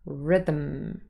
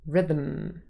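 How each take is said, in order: Both takes have the same delivery.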